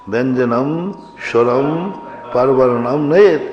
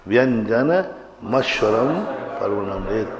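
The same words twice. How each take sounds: First: "व्यंजनम स्वरम" read with every syllable full, the म kept apart; deliberately wrong reading. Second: "व्यंजन मस्वरम" with the म carried over onto स्वरम; correct joined reading. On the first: Teacher shows students the wrong separated reading of व्यंजनम स्वरम. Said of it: "लेकिन अशुद्ध है". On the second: Teacher shows students the correct joined reading of व्यंजन मस्वरम. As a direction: join the म to the next vowel: व्यंजन मस्वरम. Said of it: "ये उच्चारण में गलती होती है". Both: Shown as a demonstration.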